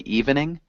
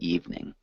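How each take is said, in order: First: The word is said with three syllables. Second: The word is said with two syllables. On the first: The speaker calls it wrong. "We wouldn't say evening" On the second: The speaker calls it right. "So just two syllables instead of three. We'd say evening"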